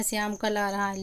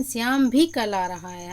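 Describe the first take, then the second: First: Said in the usual way. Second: भी pressed firmly; teacher stressing भी. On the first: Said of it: "लेकिन". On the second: Shown as a demonstration. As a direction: Shyam too is coming. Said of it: "हम ये विशेष बल दे रहे हैं भी का".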